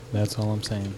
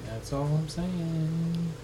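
First: Said in the usual way. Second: High, very slow, stretched words; drawn-out singsong. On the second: Pretend. Host needling the co-host about stealing, teasing drawl. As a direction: tease it out, stretching the last word. Repeats own line in singsong.

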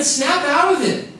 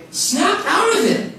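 First: Mock wake-up call. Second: Even higher, slower, laughing "Snap out of it"; second "Snap out of it", slower with a laugh; laughing repeat. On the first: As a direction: jolt yourself awake, half joking. Heart tells him to snap out. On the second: Retold or imitated. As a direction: push it over the top with a laugh.

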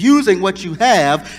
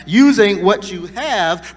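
First: Said in the usual way. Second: Slowed right down, each word weighted; slow emphatic repeat. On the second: Shown as a demonstration. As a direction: drive the phrase home slowly.

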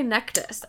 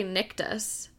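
First: Nectus with a short "eh", NEK-tus; first vowel of Nectus as in "neck"; pronouncing Nectus. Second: Nictus with a short "ih", NIK-tus; first vowel of Nictus as in "nick"; pronouncing Nictus. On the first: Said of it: "I say Nectus". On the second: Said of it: "I don't wanna say Nictus". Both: Shown as a demonstration.

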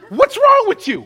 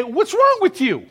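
First: Much higher and louder, "wrong" hit hard; preacher shouting at the church; loud rebuke. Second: Higher, stress on "wrong"; exasperated rebuke. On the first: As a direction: challenge the whole church. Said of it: "Let me say to the church". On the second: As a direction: demand it like a boss. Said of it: "You would say". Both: Acted.

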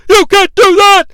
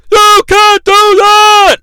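First: High, loud outraged shout, stress on You; Vince impression yell. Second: High, loud and slow, You stretched; drawn-out outraged yell. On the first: Announcer protesting to Vader, loud outraged yell. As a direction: shout it at the attacker. Vince yelling at ringside chaos. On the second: Retold or imitated. Announcer protesting again, slow stretched yell. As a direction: drag out the protest.

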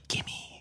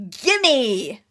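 First: Very quiet whispered gimme; under the breath. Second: Higher, grabby outburst; demanding gimme. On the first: Player as Max claims the power, under the breath. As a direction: whisper the demand to yourself. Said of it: "very quietly under your breath". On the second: Player grabbing at the power, demanding outburst. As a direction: blurt it out as a greedy demand. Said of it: "that's me saying "gimme," not, not Max saying". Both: Acted.

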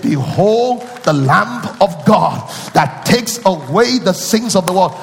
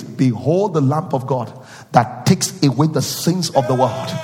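First: Slow, louder, drawn-out proclamation with away stretched; slow ringing pulpit proclamation; proclaimed verse. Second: Said in the usual way. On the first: Shown as a demonstration. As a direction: announce it like the Baptist crying out. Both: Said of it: "He said".

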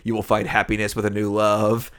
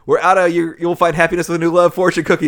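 First: Said in the usual way. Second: Louder, higher acted announcement; raised voice of a worker reporting a shortage; mock calling out. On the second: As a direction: call it out like kitchen staff. Restaurant guy calls from the back.

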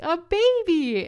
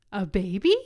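First: Much higher, very loud, slow shriek; shrieked exclamation. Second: Loud, startled shout with a rising question. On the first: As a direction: stretch it into a full-throated cry. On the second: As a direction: blurt it out in shock. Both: Retold or imitated. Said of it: "shouted that".

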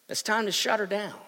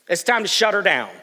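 First: Said in the usual way. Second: Louder, eager to wrap it up; mock restless churchgoer; impatient. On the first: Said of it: "that's what they were saying". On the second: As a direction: push to end the service. Restless congregation.

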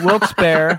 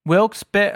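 First: Wilkes-Barre said firmly and louder; confident pronunciation. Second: Wilkes-Barre tried again with an unsure lift; unsure pronunciation. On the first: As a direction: land Wilkes-Barre with a decisive push. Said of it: "All right, well, I'm leaving that in". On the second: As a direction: say Wilkes-Barre tentatively, pitch raised. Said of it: "we tried to figure out how to say it". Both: Shown as a demonstration.

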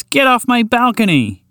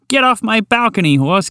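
First: Higher and slower, every word hammered; the second, more insistent shoo; angrier old woman repeat. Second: Put-on high, scolding old lady shooing a horse; angry old woman. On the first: Acted. Old woman repeats her order to the horse, slower and fiercer. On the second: Old woman orders the horse off her balcony, high and cross. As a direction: shoo the horse off like a furious granny. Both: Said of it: "shake it around threateningly".

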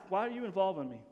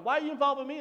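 First: Mild, even-toned asking; respectful question. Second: Higher-pitched mock annoyance; disrespectful misreading. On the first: Acted. Jesus asking his mother why, respectful and restrained. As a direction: ask gently, without any edge. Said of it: "not a disrespectful way". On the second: Son brushing off his mother's request, mock annoyed. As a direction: act put out at being dragged in. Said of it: "That's not what he's saying".

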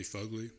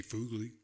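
First: Fugly said FUG-lee; Fugly with a short uh; short-u pronunciation. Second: Fugly said FOOG-lee; Fugly with a long oo; long-u pronunciation. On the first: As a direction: say Fugly with the uh of "fudge". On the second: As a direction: say Fugly with the oo of "food". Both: Shown as a demonstration. Choosing between two pronunciations.

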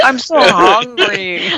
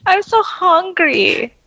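First: Slow, high whiny caterpillar voice; rubbery high squeaky toy. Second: Much higher, slow squeaky whine; rubbery high squeaky toy. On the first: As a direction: drag it out, high and hungry. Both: Retold or imitated. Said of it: "And then he goes".

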